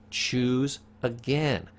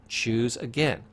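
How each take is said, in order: First: Slow, drawn-out command. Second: Said in the usual way. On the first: Shown as a demonstration. Therapist slowly urging a client to choose again.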